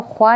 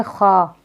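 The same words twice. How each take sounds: First: ख्वा with an audible w, khwaa; waw sounded wrongly. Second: खा as plain khaa, no w; silent waw. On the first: Teacher showing what not to read, ख्वा as khwaa. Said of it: "इसको ख्वा नहीं पढ़ेंगे". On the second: Teacher giving the right reading, खा without w. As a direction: drop the w, saying खा as khaa. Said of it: "इसको पढ़ेंगे खा". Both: Shown as a demonstration.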